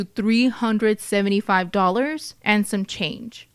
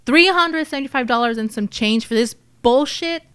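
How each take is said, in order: First: Said in the usual way. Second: Acted indignant outrage, pushed out; livid. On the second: Narrator playing someone cheated by the lockbox haul, livid. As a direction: throw the measly sum back in disbelief. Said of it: "I would be livid".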